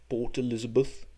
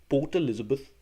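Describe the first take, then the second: No difference in how they are said.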